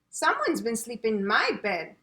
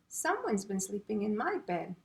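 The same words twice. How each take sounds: First: It is said in a big, loud voice. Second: It is said in a medium-sized voice. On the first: "in a great big voice" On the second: "in a medium-sized voice"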